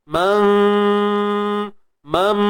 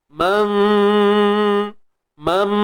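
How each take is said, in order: Both takes have the same delivery.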